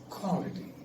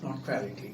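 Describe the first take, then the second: First: The start is said with rounded lips. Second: The start is said without rounded lips. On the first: The speaker calls it right. "You got round your lips before you pronounce" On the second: The speaker calls it wrong.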